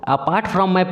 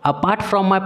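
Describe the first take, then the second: No difference in how they are said.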